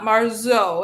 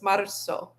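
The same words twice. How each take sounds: First: The middle consonant is a buzzing z sound. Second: The middle consonant is a soft s sound. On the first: The speaker calls it wrong. "It's not marzo" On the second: The speaker calls it right. "it's marzo. ... It's just a soft S sound"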